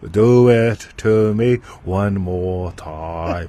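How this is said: It is said in an Elmer Fudd voice.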